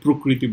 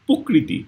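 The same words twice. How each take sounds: First: The first syllable has a clear r cluster. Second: The first syllable is said without the r. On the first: This is the trained, educated pronunciation. "জিহ্বারে ওইভাবে train করছি যে না প্রকৃতি বলতে পারি" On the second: This is how people naturally say it. "রফলাটা তো আমাদের মধ্যে নাই"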